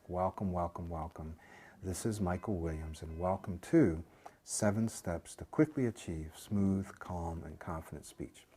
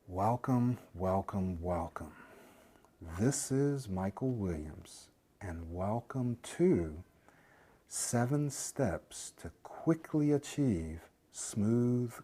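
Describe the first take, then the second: First: It is said at normal speaking speed. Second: It is said very slowly, in slow motion.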